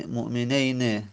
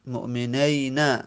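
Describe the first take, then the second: First: مؤمنین with "ey", ending in short e; final kasra. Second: Slow مؤمنین, said mu'meneyna; مؤمنین with "ey", ending in short a; dialectal final fatha. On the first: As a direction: say مؤمنین as mu'meneyne. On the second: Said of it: "فتح بدیم". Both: Shown as a demonstration.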